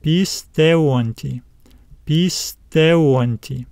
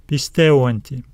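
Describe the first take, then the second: First: "pisteonti" drawn out slowly in parts, pis, teon, ti; slow teacher's demo of "pisteonti", stress on TE; slow sounding-out. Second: Said in the usual way. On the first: Shown as a demonstration. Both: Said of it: "Now let's add this suffix to it".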